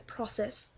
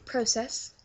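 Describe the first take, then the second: First: "process" as "PRAH-sess"; American pronunciation. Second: "process" as "PROH-sess"; long O in "process"; British pronunciation. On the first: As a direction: open vowel in the first syllable of "process". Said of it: "we don't say process". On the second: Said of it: "we say process". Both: Shown as a demonstration.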